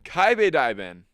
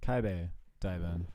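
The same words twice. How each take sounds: First: Kaibe Diamond copied slowly, KAI-beh louder; repeating pronunciation. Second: Kaibe Diamond said slowly, KAI-beh stressed; careful pronunciation. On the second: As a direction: spell out Kaibe Diamond syllable by syllable. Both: Shown as a demonstration.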